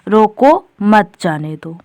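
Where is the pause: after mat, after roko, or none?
after roko. It has a pause right after roko. Stop the person; do not let them go. "यानी जो व्यक्ति है उसे रोक लो, जाने ना दो"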